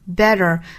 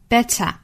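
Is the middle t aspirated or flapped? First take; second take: flapped; aspirated. First: The middle t is a quick flap. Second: The middle t is strongly aspirated. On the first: "美式发法是 better, 中间的这个 t 的发音呢，是发 flap t" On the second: "英音发法是 better, 中间的这个 t 呢，我们要爆破送气"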